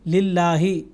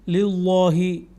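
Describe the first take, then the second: First: The L sound is light and thin. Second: The L sound is heavy and full. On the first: The speaker calls it right. "इसको हमने पुर नहीं किया" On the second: The speaker calls it wrong. "ये गलत है"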